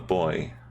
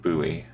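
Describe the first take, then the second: First: The word is said in a non-American way. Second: The word is said in an American way. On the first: "I call it a buoy" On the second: "in America it's, they kind of pronounce it buoy"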